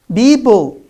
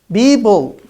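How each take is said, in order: First: The p sounds are said as b. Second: The p sounds are said as b.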